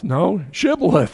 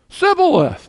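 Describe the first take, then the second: First: "shibboleth" with a firm sh sound; correct pronunciation. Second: "Sibboleth" with a plain s, pitched high; wrong pronunciation. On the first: Preacher correcting the Ephraimite, firm sh. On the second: Preacher mimicking the doomed Ephraimite, high s. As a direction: squeak out "Sibboleth" with a thin s. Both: Shown as a demonstration.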